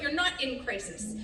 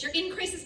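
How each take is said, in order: First: "not" picked out as the correction; stress on not. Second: "in" picked out, pitched a little higher; stress on in. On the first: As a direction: lean on "not", then let crisis drop. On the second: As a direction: lean on "in" before crisis. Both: Real, not acted. Contrasts being in and not in.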